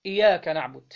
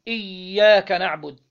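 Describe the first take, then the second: First: إياك said with a single light ya, iyāka; إياك نعبد with the shadda missing, a demo of the error; shadda dropped. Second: إياك said slowly with a strong doubled ya, iyyāka. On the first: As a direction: say إياك without doubling the ya, the faulty reading. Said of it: "أو تشديدة". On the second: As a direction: lean on the doubled ya of إياك, slow and firm. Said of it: "بتشديد الياء". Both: Shown as a demonstration.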